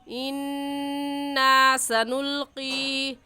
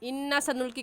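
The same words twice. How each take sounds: First: The long vowels are drawn out longer. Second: The long vowels are clipped short. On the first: The speaker calls it right. "सही है" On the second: The speaker calls it wrong. "कहना गलत है"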